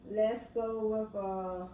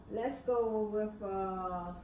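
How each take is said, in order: Both takes have the same delivery.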